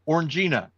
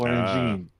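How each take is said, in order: First: The word ends with a final 'a' sound. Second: The word ends without a final 'a' sound. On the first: "I would always pronounce it as Orangina" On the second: "you didn't pronounce the a at the end"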